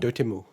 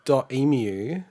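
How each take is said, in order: First: The t starts the second syllable: doh-temu. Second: It is said as 'dot' then 'emu'. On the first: The speaker calls it right. "they call it Dotemu. It's like three syllables" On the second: The speaker calls it wrong. "I've been saying .emu"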